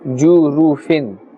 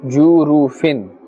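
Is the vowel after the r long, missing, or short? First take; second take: short; short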